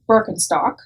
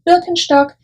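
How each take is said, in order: First: It is said with an American pronunciation. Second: It is said with a German pronunciation. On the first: The speaker calls it wrong. "an Americanized version of the actual German name" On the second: The speaker calls it right. "how we would pronounce it in Germany"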